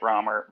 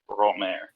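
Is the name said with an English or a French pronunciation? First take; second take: English; French. First: The name is said with an English pronunciation. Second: The name is said with a French pronunciation. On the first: "that's why I'm calling it Romer" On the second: "in French, everybody called him Romer"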